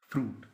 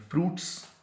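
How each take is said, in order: First: फ्रूट short, with no final s; correct singular. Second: फ्रूट्स with an added "s", higher, rising; wrong plural. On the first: Teacher giving students the correct singular फ्रूट. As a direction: say फ्रूट plainly, just singular. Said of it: "वाहिद है लफ्ज़ फ्रूट". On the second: Teacher showing students the wrong plural फ्रूट्स. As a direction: tack an s onto फ्रूट्स. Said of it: "गलत कहते हैं". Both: Shown as a demonstration.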